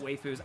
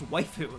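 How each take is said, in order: First: The first syllable does not sound like 'wife'. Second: The first syllable sounds like 'wife'. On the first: The speaker calls it wrong. "I used to pronounce it waifus" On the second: The speaker calls it right. "it's like wife?"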